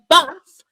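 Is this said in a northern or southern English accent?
northern. It is said in a northern English accent. "Bath for the Northerners"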